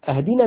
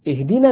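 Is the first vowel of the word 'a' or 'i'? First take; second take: a; i. First: The word begins with an 'a' vowel. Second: The word begins with an 'i' vowel. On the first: It means to give a gift. The speaker calls it wrong. "اهدنا من الهدية" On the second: It means to guide. The speaker calls it right. "اهدنا من الهداية"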